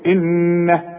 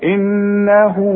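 First: The final h is cut short with no vowel. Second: The final h is followed by a lengthened vowel. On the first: The reciter stops on this word. "انما اذا وقفت" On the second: The reciter continues into the next word. "علشان امدها حركتين اذا وصل"

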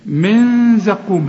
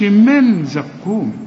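First: The n is hidden and nasalized. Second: The n is clearly pronounced with the tongue. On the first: The speaker calls it right. "هنا ما تستعملش لسانك" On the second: The speaker calls it wrong. "ما تقولش من زقوم"

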